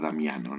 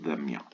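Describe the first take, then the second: First: The name ends with a clear -ano syllable. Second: The name ends with a nasal vowel sound. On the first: This is the Spanish form of the name. "en español se pronuncia Damiano" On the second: This is the original Portuguese form of the name. "originalmente el nombre sería Pedro Damião"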